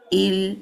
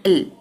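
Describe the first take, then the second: First: "il" with the i held; full timing. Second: "il" with a quick, reduced i; wrongly shortened. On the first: Teacher giving kasra its time, fully timed. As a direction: give "il" time before the l. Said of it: "il, not il". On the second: Teacher showing what to avoid, wrongly shortened. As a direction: cut "il" short. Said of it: "not il". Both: Shown as a demonstration.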